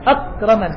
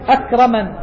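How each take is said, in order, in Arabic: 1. يُوقَف الـ k تماماً بلا أي نَفَس. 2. يُنطق الـ k مع نفخة هوائية مسموعة. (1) "لو تراعي شدة خالصة" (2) "ما يخفف عنها إلا الهمس"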